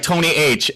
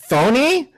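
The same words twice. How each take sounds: First: "Tony" with plain T, then a separate H; correcting to Tony H. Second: High, rising, puzzled "Tony" with TH for T; misread as Thony. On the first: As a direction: correct it to "Tony H", higher than usual. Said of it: "he was like". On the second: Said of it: "middle of the O was an H". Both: Retold or imitated.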